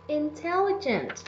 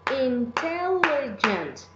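First: Said in the usual way. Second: "Intelligent" slowly broken into four beats; "Intelligent" slow and segmented; syllable by syllable. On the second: Shown as a demonstration. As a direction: draw out each syllable of "Intelligent" for counting. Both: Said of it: "to identify how many syllables".

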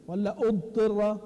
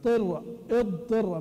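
First: "اضطر" drawn out slowly as the other reading; contrasting pronunciation. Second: اضطر said slowly, syllable by syllable; slow demo pronunciation. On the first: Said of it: "طيب نشوف هتصير إيش؟". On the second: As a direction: spell out "اضطر" slowly for students. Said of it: "يعني كيف يقرأ؟". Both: Shown as a demonstration.

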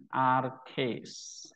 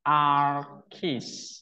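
First: Archis said as arkes, eta as e, slowly; Koine pronunciation. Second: Archis with the eta said as i, slowly; modern Greek pronunciation. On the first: Teacher contrasting Koine reading for students. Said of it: "kalau koine archis". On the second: Teacher contrasting modern Greek reading for students. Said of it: "modern Greek-nya archis". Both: Shown as a demonstration.

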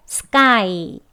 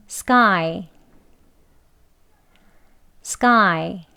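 First: "sky" drawn out slowly with a heavy Korean kk; too Korean. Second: "sky" with k close to tense kk; model sky. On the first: Teacher warns against overdoing it, slow Korean-accented "sky". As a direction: overdo "sky" as Hangul syllables. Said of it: "한글에 가까운 소리로". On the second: Teacher leads learners' word practice, tense k in "sky". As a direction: say "sky" as one syllable, k unaspirated. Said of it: "크보다는 끄 소리가". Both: Shown as a demonstration.

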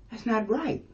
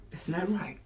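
First: Lifted, questioning "That's not right."; rising protest. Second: "That's not right." said softer, falling on "right"; soft final verdict. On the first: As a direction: let "right" rise in protest. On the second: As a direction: settle it quietly with a falling "right". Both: Shown as a demonstration.

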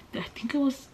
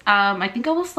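First: Whispered aside to herself. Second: Said in the usual way. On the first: Real, not acted. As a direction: drop to a breathy whisper. Repeats the phrase, then whispers it.

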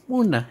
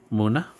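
First: Much higher, sudden call of the name; high excited call. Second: Said in the usual way. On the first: Acted. Calling out to a Munna card. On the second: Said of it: "Why do I sound bored?".

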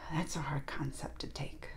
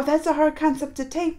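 First: Soft whisper to yourself; hushed whispered musing; whispered aside. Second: Said in the usual way. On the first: Real, not acted. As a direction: breathe it almost to yourself.

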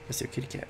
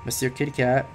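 First: Soft unvoiced whisper of the name. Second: Said in the usual way. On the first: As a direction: breathe the name like a secret. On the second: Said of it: "Monsieur Kitty Cat (whispered repeat)".

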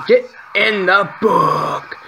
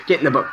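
First: High, drawn-out frustrated command; long, high gamer yell; exasperated yell. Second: Said in the usual way. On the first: Real, not acted. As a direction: stretch each word in mounting frustration. Yells at enemies in game.

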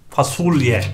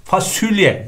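First: FASULYE with a back u; correct pronunciation. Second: FASULYE as "fasülye"; wrong pronunciation. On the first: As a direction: say fasulye as fa-sul-ye. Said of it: "olması gerekiyor". (fasulye doğru, u ile) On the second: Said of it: "değil". (fasulye yanlış, "fasülye") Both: Shown as a demonstration.

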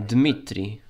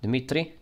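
First: Dmitri said with no vowel after the D; Dmitri, squeezed to two syllables; Dmitri without the I. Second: Dimitri said in three syllables; the spelled-out Dimitri, I included; Dimitri, full three-syllable reading. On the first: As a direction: drop the I in Dmitri. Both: Shown as a demonstration. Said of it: "Without the I".

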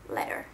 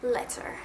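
First: Letter with a crisp, fully sounded t; Letter, careful British t; every letter pronounced. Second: Letter said again with a clear t; Letter, crisp British pronunciation; every letter pronounced. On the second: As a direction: sound out each letter of Letter. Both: Shown as a demonstration. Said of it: "pronounce every single letter".

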